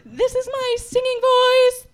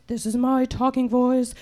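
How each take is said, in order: First: Chanted on a single held note; sung, intone it evenly as a demo; sustained monotone chant; singing voice. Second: Very low monotone; deep, level demo voice; talking voice. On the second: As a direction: sink to a deep held note. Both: Shown as a demonstration.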